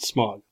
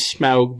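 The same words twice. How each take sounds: First: The name is said with an American pronunciation. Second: The name is said with a British pronunciation. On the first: "In American English, you pronounce it Smaug" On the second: "because that's the British accent"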